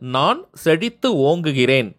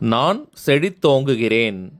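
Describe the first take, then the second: First: The last word is split into two separate words. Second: The last word is said as one joined word.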